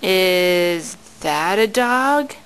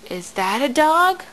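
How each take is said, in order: First: Drawn-out, low question; slow and low. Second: Said in the usual way. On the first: Shown as a demonstration. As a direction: stretch each word out slowly. Parent asks baby about picture.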